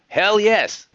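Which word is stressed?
yes. The stress falls on the word yes. An emphatic yes to the question. The speaker calls it wrong. "I accentuated the wrong syllables there"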